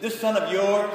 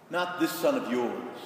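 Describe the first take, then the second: First: "This son of yours" with stress on son, mild contempt; scornful son. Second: "this" stressed, lower and slower; corrective stress. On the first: Retold or imitated. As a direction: spit out "son" dismissively. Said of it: "when he said". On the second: Shown as a demonstration. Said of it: "preacher corrects the phrase".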